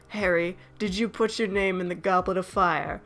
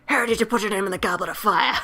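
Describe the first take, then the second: First: The question is asked calmly. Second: The question is asked agitatedly.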